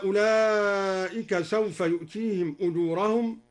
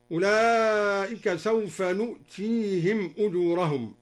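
First: Said in the usual way. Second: "نؤتيهم" as nu'tihim; nun of majesty. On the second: Shown as a demonstration. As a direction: begin "نؤتيهم" with n instead of y. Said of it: "قرأ الدوري بنون العظمة".

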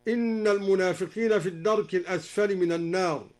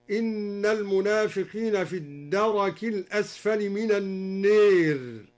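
First: Said in the usual way. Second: "الدرك" as ad-daraki, "النير" as an-neer; open ra and imala. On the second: Shown as a demonstration. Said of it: "قرأ الدوري بفتح الراء".

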